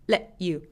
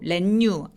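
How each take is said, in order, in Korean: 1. t는 숨을 멈춰서 끊어요. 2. t는 you와 자연스럽게 이어져요. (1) "배에 힘을 빡 주고 소리를 끊어버리는 게 중요합니다" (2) "안 돼요"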